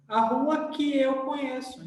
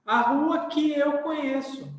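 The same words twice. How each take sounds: First: "que" said weak, like "ki", calmer. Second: "que" said weak, like "ki". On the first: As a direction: repeat with "que" unstressed like "ki". ("que" com som de "i") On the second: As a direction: read "que" with the "i" sound. ("que" átono, com som de "i") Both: Shown as a demonstration. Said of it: "a gente fala com som de i".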